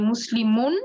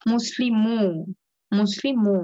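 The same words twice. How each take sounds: First: মুসলিমুন with the final n sounded; full noon ending. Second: মুসলিমু with an open "-muu" and no n; noon dropped. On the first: Teacher recalls the learned form, noon pronounced. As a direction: say মুসলিমুন as learned, closing on "-mun". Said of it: "প্রথমটা আমরা শিখে আসছি". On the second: Teacher shows noon left out, open u ending. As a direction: punch out মুসলিমু, holding the last vowel. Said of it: "নুনটাকে বাদ দিলাম". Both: Shown as a demonstration.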